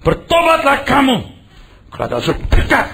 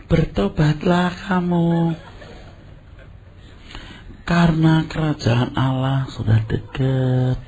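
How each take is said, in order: First: Much higher, louder "Bertobatlah" shouted out; fiery call to repent. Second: Gentle motherly version. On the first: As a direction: thunder it like a revival preacher. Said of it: "Nadanya gimana nadanya?". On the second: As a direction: coax them slowly like a kind auntie. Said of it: "nanti ibu-ibu, ini wanita lagi". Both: Retold or imitated.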